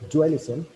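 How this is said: It is said with a questioning tune. The speaker calls it right. "it sounds like I'm asking a question"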